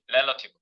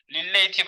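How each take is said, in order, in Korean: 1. 이 단어는 'rel-uh-tiv'처럼 들려요. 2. 이 단어는 'ri-lay-tiv'처럼 들려요. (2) "릴레이티브 아님"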